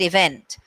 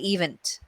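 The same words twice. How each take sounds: First: The stress falls on the expected syllable. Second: The stress falls on an unexpected syllable. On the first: The speaker calls it right. "like the word event" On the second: The speaker calls it wrong. "they're stressing on the wrong syllable"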